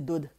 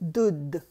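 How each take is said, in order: First: The consonant before the final sound is short. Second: The consonant before the final sound is held long. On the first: The speaker calls it wrong. "If we didn't have the adak, we'll say dud" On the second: The speaker calls it right. "dud is the proper pronunciation"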